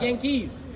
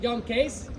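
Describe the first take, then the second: First: It is said with an English pronunciation. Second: It is said with a Dutch pronunciation.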